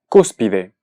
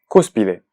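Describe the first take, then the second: Both takes have the same delivery.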